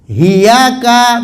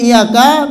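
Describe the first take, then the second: First: The word begins with an h sound. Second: The word begins with a glottal stop and vowel. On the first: "bilha ba'dal hamzah" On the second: "bi fathil hamzati wa tasdidil ya'i"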